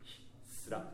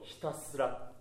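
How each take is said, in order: First: The middle vowel is dropped, so the word shrinks. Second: Every vowel in the word is clearly sounded. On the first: The speaker calls it wrong. "ちょっと気を抜くと" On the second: The speaker calls it right. "ちゃんとひたすらと母音をしっかり入れましょう"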